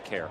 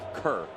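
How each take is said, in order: First: The vowel sounds like the word 'care'. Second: The vowel sounds like the word 'cur'. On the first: The speaker calls it wrong. "not care" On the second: The speaker calls it right. "it's pronounced Kerr"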